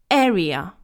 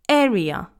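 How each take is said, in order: No difference in how they are said.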